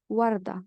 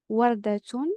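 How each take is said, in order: First: The word ends with a soft h sound. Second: The word ends with a t sound and vowel. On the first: The speaker stops on the word. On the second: The word is not at a pause.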